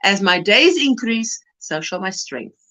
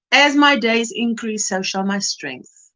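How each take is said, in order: First: Solemn verse. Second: Quoting scripture. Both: Acted. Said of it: "That verse".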